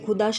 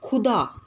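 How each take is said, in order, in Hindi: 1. पहला व्यंजन सादा बोला जाता है, ज़ोर के बिना। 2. पहला व्यंजन ज़ोर देकर बोला जाता है।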